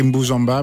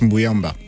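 First: The middle consonant is a j sound. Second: The middle consonant is a y sound. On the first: The speaker calls it wrong. "Ça s'écrit Mboujamba" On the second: The speaker calls it right. "mais ça se prononce Mbouyamba"

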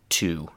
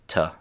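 First: The word is said in its full form. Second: The word is reduced to a weak vowel. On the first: "instead of" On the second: "chewing gum English"

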